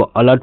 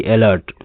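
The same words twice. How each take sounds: First: अलर्ट opening on a short "uh"; correct pronunciation. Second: अलर्ट wrongly opening on an "e" vowel; mispronunciation demo. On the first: Teacher models alert for learners, अलर्ट with an "uh" start. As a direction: say अलर्ट as "uh-lert". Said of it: "इसको अलर्ट पढ़ते हैं". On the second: Teacher rejects a misreading of alert, अलर्ट with an "e" start. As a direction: say अलर्ट as "e-lert". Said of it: "ना कि अलर्ट". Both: Shown as a demonstration.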